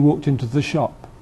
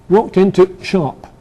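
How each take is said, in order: First: The word 'the' is pronounced in full. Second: A brief glottal catch stands in for 'the'. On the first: "instead of he walked into the shop" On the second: "Just a slight hesitation"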